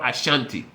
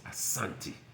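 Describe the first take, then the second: First: The middle consonant is a 'sh' sound. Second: The middle consonant is an 's' sound. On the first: This is the outsiders' English form of the name. The speaker calls it wrong. "there's no tribe in Africa called Ashanti" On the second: This is how the people name themselves. The speaker calls it right. "It's Asante"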